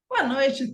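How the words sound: The greeting sounds warm and welcoming. The listeners are being welcomed. "Tem a entonação certa"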